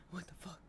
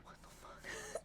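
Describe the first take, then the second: First: Said in the usual way. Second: Breathless high whispered what-the; stunned whisper. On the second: Retold or imitated. Imagining hearing the ew, whispering in shock. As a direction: whisper it in pure disbelief. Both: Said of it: "I would just be like".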